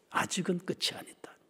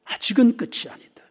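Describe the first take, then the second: First: Hushed, urgent whisper. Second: Full voice. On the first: Preacher whispering a warning to the congregation. Whispered then repeated aloud. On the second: Preacher declaring the warning aloud to the congregation. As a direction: proclaim it after the whisper. Repeat aloud after whisper. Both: Acted.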